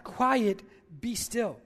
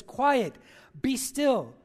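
First: Matter of fact. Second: Louder, firm command to the wind; commanding rebuke. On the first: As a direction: say it as if it's obvious. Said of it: "it's a matter of fact". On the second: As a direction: order the storm to stop. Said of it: "He says, he rebukes this wind". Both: Retold or imitated.

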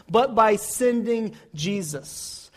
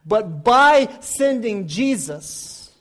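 First: Said in the usual way. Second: BY drawn out and punched louder; slow down and lean hard on "By"; stress on BY. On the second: Real, not acted. Preacher repeating how God rescues us, stress on "By".

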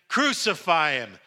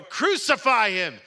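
First: Loud crowd demand; crying out. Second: High, slow, very loud crowd shout; shouting all the more. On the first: Crowd answers Pilate about Jesus, crying out. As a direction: cry out, louder but not at full force. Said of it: "they cried out again". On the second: Crowd overrides Pilate's protest, shouting all the more. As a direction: shout it harder, stretching it out. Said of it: "they shouted all the more". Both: A narrator's reading.

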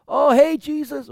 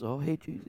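First: High, loud sneering call; mocking taunt. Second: Quiet muttered taunt. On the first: Passerby taunting Jesus on the cross, high mocking call. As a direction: toss a jeer at him. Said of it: "hurled insults at him". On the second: Shown as a demonstration. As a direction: mutter it under your breath. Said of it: "not just, like, whispering".

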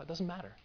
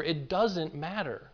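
First: "doesn't" said much softer, falling, to himself; quiet inner resolve. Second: "doesn't" stressed and falling, whole line drawn out slowly; slow emphatic. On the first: Retold or imitated. Pastor recalling what he told himself after reading the passage, soft. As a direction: murmur "It doesn't matter" as a private realization. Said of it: "I thought". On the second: Acted. Pastor driving the point home to his congregation, slow and emphatic. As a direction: land "It doesn't matter" deliberately, word by word.

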